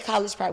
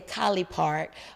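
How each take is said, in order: First: The first word ends with a 'j' sound. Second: The first word ends with an 'ee' sound. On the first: This is how people outside the area say it. "We don't say college park" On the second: This is how locals say it. "We say Collie Park"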